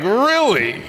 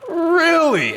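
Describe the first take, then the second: First: High, incredulous really; disbelieving question, pitched way up; surprised. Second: Even higher, stunned really; more surprised. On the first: Disbelief at news headline. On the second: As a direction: push the disbelief further up. Repeats in disbelief. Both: Real, not acted.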